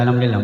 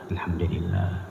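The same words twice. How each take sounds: First: The phrase is said quickly and hurriedly. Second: The phrase is said slowly and calmly. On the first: "Coba kalau cepat" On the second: "Coba enaknya itu Bu"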